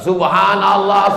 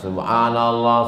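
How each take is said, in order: First: It is said very loudly. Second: It is said at a moderate volume.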